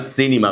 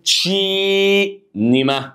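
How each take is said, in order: First: The word begins with an s sound. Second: The word begins with a ch sound. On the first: The speaker calls it wrong. "هُم ما بيقولوهاش سينما" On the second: The speaker calls it right. "بيقولوا إيه؟ تشينيما"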